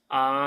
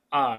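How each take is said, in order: First: The pitch stays high and level. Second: The pitch falls sharply from high to low. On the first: "nada satu itu datar" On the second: "nada empat turun"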